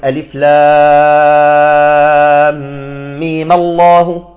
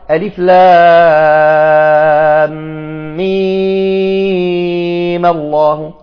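First: The vowel in mim is held only briefly. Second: The vowel in mim is drawn out long. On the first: "إما بالقصر" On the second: "الوجه الثاني بالإشباع"

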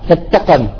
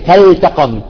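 First: The L sound is merged away into the T. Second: The L sound is clearly pronounced before the T. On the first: The speaker calls it wrong. "بعضهم غير العرب يقول فتقم فتقم، يدغم" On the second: The speaker calls it right. "لا هي فلتقم"

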